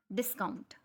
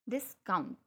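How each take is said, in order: First: Said in the usual way. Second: discount split after डिस, weight on count; stress on second syllable. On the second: Shown as a demonstration. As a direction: break discount in two and lean on count. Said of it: "वो rise हुई है वहाँ पे sound". (Discount में डिस के बाद रुककर count पर ज़ोर)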